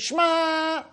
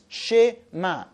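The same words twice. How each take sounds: First: The vowel after sh is dropped. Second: The vowel after sh is pronounced. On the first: The speaker calls it wrong. "A person should not say Shema. That's wrong" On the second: The speaker calls it right. "It's Shema. That's a Sheva Na"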